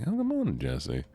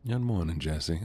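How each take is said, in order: First: High, singsong good morning; cartoonish squeak of a greeting; squeaky high greeting. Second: Said in the usual way. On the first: Shown as a demonstration. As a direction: chirp it way up high. Greets Jesse again, sing-song.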